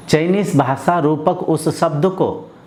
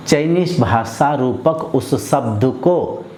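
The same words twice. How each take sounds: The two takes are said the same way.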